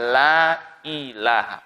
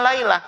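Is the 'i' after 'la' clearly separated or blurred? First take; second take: clearly separated; blurred. First: The i is clearly separated with a glottal stop. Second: The i is blurred into the la, like laila. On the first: It is the proper words of remembrance. The speaker calls it right. "I yang jelas" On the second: It sounds like the word for night. The speaker calls it wrong. "bukan la ilaha"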